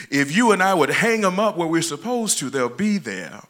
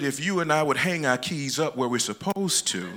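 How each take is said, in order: First: Higher and louder, driving the point home; louder emphatic repeat. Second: Said in the usual way. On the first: Real, not acted. Preacher repeating to the congregation, louder and higher.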